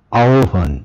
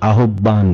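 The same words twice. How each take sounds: First: আহ্বান said the standard way, as aobhan, with no h sound; correct pronunciation. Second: আহ্বান said as ahobban, letter by letter as spelled; আহ্বান mispronounced with a full h and a doubled b; common mispronunciation. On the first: Teacher models আহ্বান for students, carefully correct. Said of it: "আহ্বানটি কি বলি?". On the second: Teacher shows students the common wrong আহ্বান. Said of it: "অনেক সময় আহ্বান বলি". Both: Shown as a demonstration.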